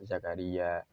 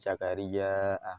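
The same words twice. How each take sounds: First: The final vowel is kept short. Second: The final vowel is drawn out long. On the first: "yang maksur dibaca Zakaria" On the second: "yang mamdud itu membacanya menjadi Zakaria"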